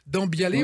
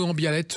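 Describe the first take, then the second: First: The name is said the standard French way. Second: The name is said the Occitan way.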